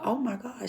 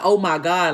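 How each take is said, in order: First: Softer, higher, realizing she is serious; retold dawning concern. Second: Loud, fed-up "oh my God", imitated; mock exasperation. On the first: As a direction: imitate someone taken aback, voice lifted and softened. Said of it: "she really serious right now". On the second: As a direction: act out being annoyed by someone. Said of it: "this bitch getting on my nerves".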